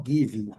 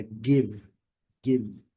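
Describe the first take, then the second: First: "give" with an extra 'ee' vowel after the V; the wrong take, "give" stretched to two syllables; wrong final I. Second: "give" in one syllable, stopping on the V; "give" with no vowel after the V; no final I. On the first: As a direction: mispronounce "give" as 'givee'. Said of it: "não give". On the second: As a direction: say "give" closing cleanly on the V. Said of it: "sem o I final". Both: Shown as a demonstration.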